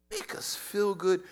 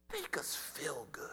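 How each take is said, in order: First: Said in the usual way. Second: Soft whispered plea; pleading whisper. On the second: Acted. Preacher voicing believers begging to feel good, whispered. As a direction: breathe it like a secret wish.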